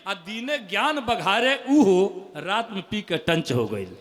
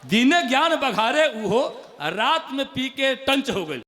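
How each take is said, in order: First: Slow recital. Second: Punchline repeat. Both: Acted. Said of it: "मुक्तक".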